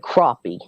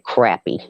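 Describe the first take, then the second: First: The word uses the Kentucky pronunciation. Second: The word uses the South Carolina pronunciation. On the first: "In Kentucky, they say crappie" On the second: "In South Carolina, we say crappie"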